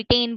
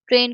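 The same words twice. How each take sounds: First: टेन with the R of train dropped; child's cluster reduction. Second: Said in the usual way. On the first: Retold or imitated. Lecturer corrects her example of a child's error, टेन without R. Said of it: "sorry". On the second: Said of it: "ट्रेन को स्ट्रेन बोल रहा है".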